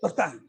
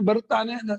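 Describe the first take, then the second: First: The middle syllable is swallowed, making it shorter. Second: Every syllable is pronounced fully and distinctly. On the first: The speaker calls it wrong. "ಒಂದೊಂದು ಅಕ್ಷರ ನುಂಗುವುದು" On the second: The speaker calls it right. "ಪೂರ್ತಿ ಅಕ್ಷರ ಹೇಳೋದೇ ಇಲ್ಲ"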